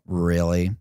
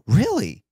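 First: It sounds doubtful and uninterested. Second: It sounds eager and interested. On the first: The listener doubts the story and does not care. "Then you know I'm doubting it and disinterested" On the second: The listener is engaged by the story. "Then you know I'm interested"

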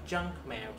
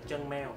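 First: The stress falls on the first word. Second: The stress falls on the second word. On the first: The speaker calls it right. "mình sẽ nhấn âm đầu, nó sẽ là junk mail" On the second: The speaker calls it wrong. "chứ phải đọc là chân mail"

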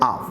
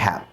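First: The word is reduced with the h dropped. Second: The word is said in full with the h. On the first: The word is in the middle of the sentence. "যদি বাক্যের মাঝে আসে তাহলে তার উচ্চারণ করতে হবে আভ" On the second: The word ends the sentence. "যদি বাক্যের শেষে আসে তবু তার উচ্চারণ করতে হবে হ্যাভ"

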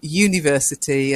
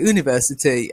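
First: It is said with a British pronunciation. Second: It is said with an American pronunciation.

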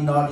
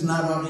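First: Said fast, blended into one word. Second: Two separate words, said fairly slowly. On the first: "say that real fast a few times, and it ends up coming out like this"

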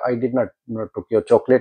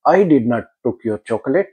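First: The stress is on the word not. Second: The stress is on the word I.

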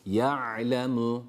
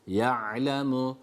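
No difference in how they are said.

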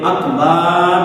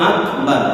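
First: The vowel after the b is drawn out long. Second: The vowel after the b is kept short. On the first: The speaker calls it wrong. "কেউ যদি বলে আকবার, বা লম্বা করে" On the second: The speaker calls it right. "এইভাবে উচ্চারণ সঠিক করে নিতে হবে"

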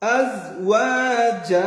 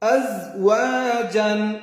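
First: The word ends with a long a vowel. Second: The word ends with an n sound. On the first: Reading stops at this word. "এখন যদি আমি ওয়াকফ করি তাহলে" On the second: Reading continues into the next word. "জিম আলিফ দুই জবর জান"

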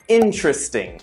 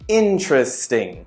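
First: A middle syllable of the word is dropped. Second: A middle syllable of the word is dropped.

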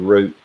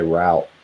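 First: The word is said the Western way. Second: The word is said the Southern way. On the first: "if they're from the West, they'll say the word root" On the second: "typically, Southerners say route"

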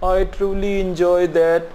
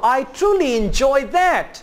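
First: The voice sounds flat and unexcited. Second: The voice sounds excited and lively. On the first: The speaker calls it wrong. "No excitement" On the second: The speaker calls it right.

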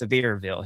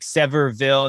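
First: The name is said in the local pronunciation. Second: The name is said in an outsider's pronunciation. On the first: This is how residents say it. The speaker calls it right. "no, we say it's Sevierville here" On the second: This is how a newcomer would say it. The speaker calls it wrong. "I'm the West Coaster trying to like Sevierville"

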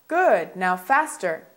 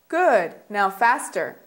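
Both takes have the same delivery.

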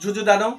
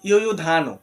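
First: The word begins with a 'j' sound. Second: The word begins with a 'y' sound.

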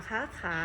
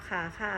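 Both takes have the same delivery.

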